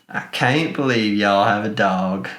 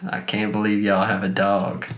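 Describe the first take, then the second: The two takes are said the same way.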